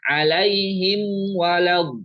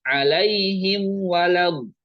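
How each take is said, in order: Both takes have the same delivery.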